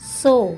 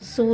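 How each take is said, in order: First: The vowel is an oh sound. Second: The vowel is a long oo sound. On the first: The speaker calls it right. "वो हो जाता है सो" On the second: The speaker calls it wrong. "सू नहीं होता"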